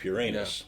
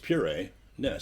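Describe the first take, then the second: First: It is said fast, run together as one word. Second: It is said slowly with a break between parts. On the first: "when you say it fast, it sounds like" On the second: "Because it's puree. Ness"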